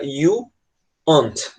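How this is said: It is said with a British accent. "Eles tendem a pronunciar esse are mais esse not como se fosse on't"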